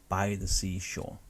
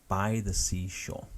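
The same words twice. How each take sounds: Both takes have the same delivery.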